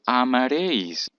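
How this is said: The three words run together as one word. The speaker calls it wrong. "lo pego y digo"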